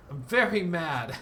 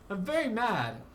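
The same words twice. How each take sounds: First: Slow, louder I'm very mad, put-on voice; a hammed-up grumpy declaration; mock mad. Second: Higher I'm very mad with a laugh; half-laughing pretend sulk, pitched higher; laughing mock mad. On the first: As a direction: pretend sulk, slow and louder. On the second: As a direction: break into a laugh over the fake anger.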